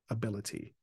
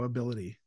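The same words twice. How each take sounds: First: The middle T is a crisp, clear T. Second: The middle T sounds like a soft D. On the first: The speaker calls it right. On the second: The speaker calls it wrong.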